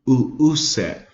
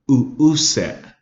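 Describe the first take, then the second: First: The word has catches in the throat between sounds. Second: The same.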